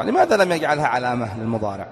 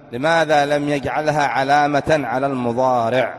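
First: Said in the usual way. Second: Slow, deliberate question, each word spaced; slower repeat. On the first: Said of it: "teacher poses question to class". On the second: Shown as a demonstration. Teacher repeats the question to his students, slow and deliberate. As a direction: repeat it slowly so every student catches it. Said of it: "teacher repeats question to class".

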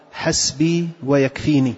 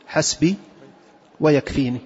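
No difference in how they are said.

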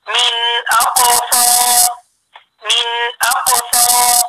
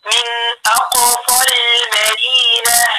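First: Slow chant, final aa of أقصى held long; madd kept on stopping. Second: Slow recitation, أقصى linked short into المدينة; madd dropped in joining. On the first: Teacher showing the stopped form, long final vowel. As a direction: stop on أقصى with a stretched vowel. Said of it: "لما بقف عليها بقول". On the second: Teacher repeating the example, slow linked recitation. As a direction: chant من أقصى المدينة with no long aa before lam. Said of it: "حرف المد بعديه حرف ساكن". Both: Shown as a demonstration.

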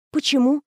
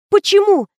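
First: High, small-voiced question; pitched up, held back; hurt bewilderment. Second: High, loud alarmed question; urgent, pitched right up; bewildered. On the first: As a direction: ask meekly, taken aback. Mistress rebuffed by her lover. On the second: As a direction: demand a reason in dismay. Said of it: "принялась задавать бестолковые вопросы". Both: A narrator's reading.

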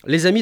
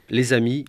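First: Les amis called out as a new heading, amis hit hard; heading announced. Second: Said in the usual way. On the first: Shown as a demonstration. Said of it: "Les amis, d'abord". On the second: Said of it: "list of four categories".

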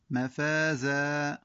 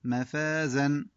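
First: مفازا held with a long final alif at the stop; pausal form. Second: مفازا recited with full final alif, in connected recitation; connected reading. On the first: Teacher demonstrates the stop to pupils, pausal form. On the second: Teacher shows the word before the pause, recited. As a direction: say مفازا as mid-verse, vowel kept. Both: Shown as a demonstration. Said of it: "وقف".

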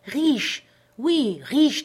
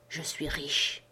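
First: Much higher, loud insistence; vehement. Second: Low, soft secret whisper. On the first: Castaway insisting to doubtful Jim, vehement. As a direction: hammer the word riche home. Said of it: "il répéta son assertion avec véhémence". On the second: Castaway confiding his wealth to Jim, hushed whisper. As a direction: lean in and breathe the secret. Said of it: "me dit dans un chuchotement". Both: A narrator's reading.

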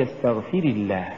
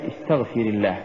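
First: "استغفر" as istaghfiri, weight on the i; feminine استغفر. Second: "استغفر" with short ri, quickly joined to الله; masculine استغفر. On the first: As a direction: address a woman: lean on fi-ri in استغفر. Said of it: "يا سمية". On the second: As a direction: address a man: clipped ri in استغفر. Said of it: "فأنا أقول يا محمد". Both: Shown as a demonstration.

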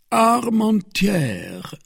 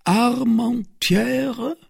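First: "Armentières" read out slowly, high, with a falling close. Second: "Armentières" very slow and high, rising at the end; puzzled question. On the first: Porthos reading the paper, "Armentières" high and drawn out. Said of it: "read Porthos". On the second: Porthos not knowing the town, "Armentières" rising, puzzled. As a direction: stretch "Armentières" into a baffled question. Repeats unknown name, puzzled. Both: Acted.

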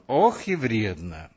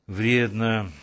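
First: Drawn out slowly with a sighing Ох; slow rueful agreement, leaning on Ох; Коля to Мира, slow mock-rueful Ох и вредно; mock-serious sigh. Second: Said in the usual way. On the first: A narrator's reading. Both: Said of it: "подтвердил он".

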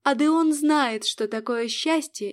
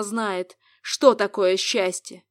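First: "Адеон" slow and raised, defiant; stress on Адеон. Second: Slow sarcastic jab, stress on что. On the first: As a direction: lean hard on "Адеон", then fall. She throws his words back. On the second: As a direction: drag out "что такое счастье" with scorn. Mocking the rival demon. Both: Acted.

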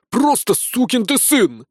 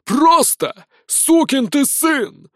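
First: High, slow furious roar; roaring corporal. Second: High, slow roar from far off; distant shout. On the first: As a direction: bellow it at the recruit. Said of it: "взревел капрал". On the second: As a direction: yell it across the field. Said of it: "раздался вдалеке голос". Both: Acted.

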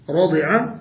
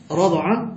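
First: رضع said radi'a; kasra on the dad. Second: رضع said rada'a; fatha on the dad. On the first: Teacher asks for the verb's pattern, radi'a for رضع. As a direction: say رضع with an i after the ض. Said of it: "عايزين بقى بكسر الضاد". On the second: Teacher offers the contrasting pattern, rada'a for رضع. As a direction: say رضع with an a after the ض. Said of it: "بفتح الضاد". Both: Shown as a demonstration.

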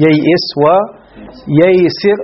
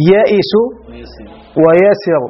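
First: "ييئس وييسر" said slowly with a doubled y-glide, "yay-"; original form. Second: "يئس ويسر" with long "yaa" in place of "yay-"; variant form. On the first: Teacher giving the original form, slow careful pronunciation. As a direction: sound both y's opening "ييئس وييسر". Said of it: "فيها الأصل". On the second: Teacher giving what Arabs also said, careful pronunciation. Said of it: "وقالوا". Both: Shown as a demonstration.

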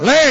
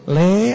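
First: "Le" snapped short and hard; harsh "Le". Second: "Le" said softly and gently. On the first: Modern parent calls son curtly. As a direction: bark "Le" sharply. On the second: Old-style parent calls son gently. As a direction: call "Le" tenderly, drawn out. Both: Shown as a demonstration.

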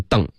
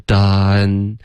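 First: Done closed off as "dang", without a clear N; wrong ending demo. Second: Done drawn out as "dahn", tongue tip on the palate; correct N ending. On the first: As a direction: show the mistaken done, like Chinese "dang". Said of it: "别发成done". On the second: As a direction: land done on a clear N. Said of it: "舌尖要顶上颚". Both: Shown as a demonstration.

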